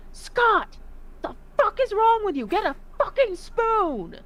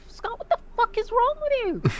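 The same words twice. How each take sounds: First: Exasperated yelling. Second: Much higher, scolding; exasperated yell. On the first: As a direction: bark at him in disgust, high. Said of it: "He's like". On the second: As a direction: shriek at him in disbelief. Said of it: "I'm, I'm like". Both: Retold or imitated.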